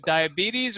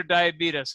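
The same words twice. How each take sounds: First: Diabetes said "die-a-BEE-teez"; standard pronunciation. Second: Diabetes said "die-a-BEE-tus"; Brimley-style pronunciation. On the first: Asking the actor to choose, diabetes as "die-a-BEE-teez". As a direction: end diabetes on a long "teez". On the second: Asking the actor to choose, diabetes as "die-a-BEE-tus". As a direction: end diabetes on a short "tus". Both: Retold or imitated. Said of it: "there are differing pronunciations".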